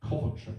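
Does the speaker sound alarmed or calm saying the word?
calm. The word is said calmly and plainly. This is the everyday way to say the name. "I will only ever say it like this"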